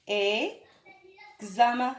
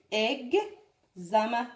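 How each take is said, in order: First: "examen" drawn out syllable by syllable; very slow spelling-out. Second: "Examen" said slowly but less drawn out; slow model word. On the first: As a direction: stretch "examen" slowly for pupils. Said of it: "J'écris un exemple avec vous". (نطق بطيء جدًا لكلمة examen) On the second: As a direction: repeat "Examen" slowly, a bit quicker. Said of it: "تعودوا على نطقه". (نطق بطيء لكلمة Examen) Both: Shown as a demonstration.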